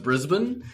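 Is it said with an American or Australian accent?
Australian. It is said the Australian way.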